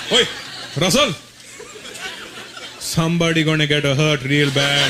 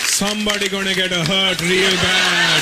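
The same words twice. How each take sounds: First: Put-on lower, Indian-accented fatherly menace; low, laughing threat from dad; dad's threat. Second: Put-on heavy Indian-accented dad threat; dad's threat. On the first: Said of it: "I hated that threat". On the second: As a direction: drag out real with menace. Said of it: "That was my dad's threat".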